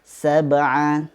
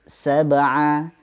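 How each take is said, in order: The two takes are said the same way.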